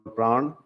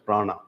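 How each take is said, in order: First: It is said the Sanskrit and Hindi way. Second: It is said the English way. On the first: "In Sanskrit and Hindi, it is called pran" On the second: "in English, it is pronounced as prana"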